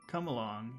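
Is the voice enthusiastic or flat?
flat. It is said flatly, without enthusiasm. The speaker calls it wrong. "Not come along"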